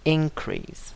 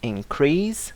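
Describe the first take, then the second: First: The stress is on the first syllable. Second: The stress is on the second syllable. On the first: It is used as a noun. "in the noun, the stress falls on the first syllable" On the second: It is used as a verb. "In the verb, we stress the second syllable"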